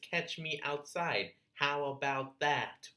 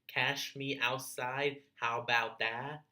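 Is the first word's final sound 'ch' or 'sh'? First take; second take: ch; sh. First: The first word ends in a 'tch' sound. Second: The first word ends in a plain 'sh' sound. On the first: The speaker calls it right. "The correct way to say it" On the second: The speaker calls it wrong. "a phrase that's grammatically incorrect"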